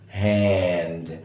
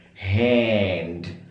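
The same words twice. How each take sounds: The two takes are said the same way.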